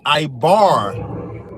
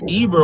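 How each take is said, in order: First: The name is said with a Hebrew pronunciation. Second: The name is said with an English pronunciation. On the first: "in Hebrew it would be Ibar. That's actually how you would pronounce it" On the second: "it came from Eber"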